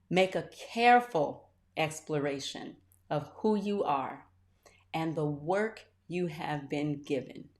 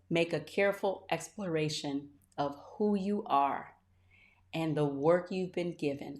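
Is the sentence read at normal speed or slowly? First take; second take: slowly; normal. First: It is read very slowly. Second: It is read at a normal pace.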